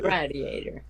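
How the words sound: It is said with a Canadian pronunciation. "To them"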